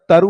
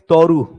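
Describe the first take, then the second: First: The first vowel is a short open 'a'. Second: The first vowel is a rounded 'o'. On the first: "वैसे तो क्या होता है, तरु होता है" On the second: "बंगाली लोग ... ओ करते हैं"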